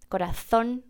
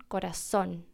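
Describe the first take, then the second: First: Corazón said koraθón with th; Castilian corazón. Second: Corazón with a plain s, korasón; soft contrast, corazón with s; seseo corazón. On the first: Teacher repeating the Spanish th in corazón. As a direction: repeat Corazón with the tongue between the teeth. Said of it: "para un español puede ser corazón". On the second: Teacher contrasting the Latin American s in corazón. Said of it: "para nosotros es corazón". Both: Shown as a demonstration.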